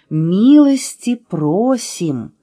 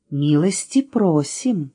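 First: Very slow, stretched-out welcome; welcoming, stretched. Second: Slow, drawn-out welcome; welcoming. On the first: Letter И nodding to guests, very drawn-out welcome. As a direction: stretch each stressed vowel in the invitation. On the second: Letter И welcomes guests to morning tea, drawn-out and welcoming. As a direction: invite them in slowly. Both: A narrator's reading. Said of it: "закивала буква".

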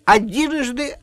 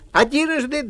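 First: Raised announcing call; announcing showman. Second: High, raised announcing call; announcing showman. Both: Acted. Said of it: "сказал Ваня".

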